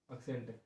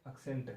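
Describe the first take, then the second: No difference in how they are said.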